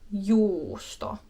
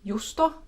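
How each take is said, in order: First: The u vowel is held long. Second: The u vowel is held short.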